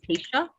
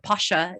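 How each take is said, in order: First: The name is said like 'Pacia'. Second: The name is said like 'Pasha'. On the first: This is how the family says its name. The speaker calls it right. "The the the family name is actually Pacia" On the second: This is a common mispronunciation of the family name. The speaker calls it wrong. "some people pronounce that that company wrong. They call it Pasha"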